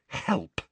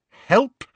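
First: Tight, disdainful repeat; constricted voice. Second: High, loud, rising disbelief; strangled, incredulous question; constricted voice. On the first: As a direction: drop the word with contained outrage. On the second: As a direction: squeeze out the word in outrage. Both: Acted. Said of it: "she repeated in a constricted voice".

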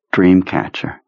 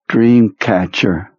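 First: Said in the usual way. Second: Dreamcatcher, slow and careful, every sound clear; dying words. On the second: Acted. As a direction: say Dreamcatcher slowly and perfectly. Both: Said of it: "he pronounced the word perfectly".

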